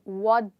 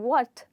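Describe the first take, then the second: First: The t is softened into a d sound. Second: The t sound is said clearly. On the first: "with a d sound" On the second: "instead of saying what"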